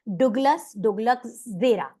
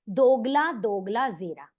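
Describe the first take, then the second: First: The first word ends with an s sound. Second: The first word has no s sound. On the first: The speaker calls it wrong. "डुगलस नहीं बोलेंगे" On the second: The speaker calls it right. "एस silent करके"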